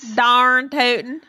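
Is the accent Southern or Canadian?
Southern. It is said in a strong Southern drawl.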